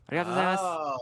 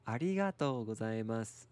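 First: It is said fast. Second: It is said at normal speed.

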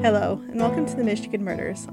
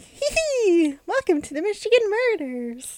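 First: It is said plainly, without giggling. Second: It is said in a giggly way.

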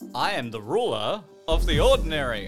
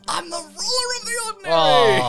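First: It is said plainly, without acting. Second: It is acted out like the movie's exclamation.

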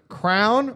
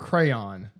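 First: The word sounds like one syllable, 'crown'. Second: The word sounds like two syllables, 'cray-on'. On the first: The speaker calls it wrong. "Crown or crayon?" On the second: The speaker calls it right. "It's crayon, right?"

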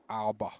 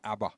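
First: It is pronounced the American way. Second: It is pronounced the Australian way. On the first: "as the Americans call them" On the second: "The Australians call them ABBA"

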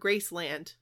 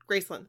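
First: The second syllable is a full, clear 'land'. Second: The second syllable is reduced, run into one word. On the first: "We've always said Graceland" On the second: "It's like one word"

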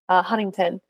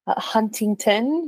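First: The T is dropped from the word. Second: The T is clearly pronounced.

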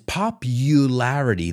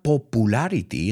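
First: The u is said as 'you', as in community. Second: The u is said as a plain 'oo' sound. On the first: The speaker calls it right. "it's popularity. That U is like community" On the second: The speaker calls it wrong. "It's not popularity"

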